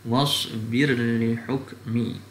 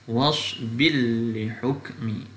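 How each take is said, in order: First: The r is pronounced clearly before the l. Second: The r merges into a doubled l sound. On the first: "dibaca dengan izhar" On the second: "Kalau masuk idgham"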